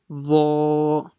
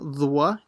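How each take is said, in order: First: No w sound follows the dh. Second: A w sound follows the dh. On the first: The speaker calls it right. "it's dha" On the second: The speaker calls it wrong. "So it's not dhwa"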